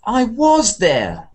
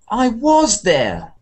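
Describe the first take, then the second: First: The sentence is said with strong contrastive emphasis. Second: The sentence is said with strong contrastive emphasis.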